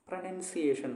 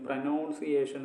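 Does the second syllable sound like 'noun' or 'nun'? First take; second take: nun; noun. First: The second syllable sounds like 'nun'. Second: The second syllable sounds like 'noun'. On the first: The speaker calls it right. "പ്രൊനൗൺസിയേഷൻ എന്നാണ്" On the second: The speaker calls it wrong. "But it's it's absolutely wrong"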